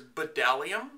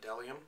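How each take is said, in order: First: The initial B sound is pronounced. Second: The initial B sound is left silent.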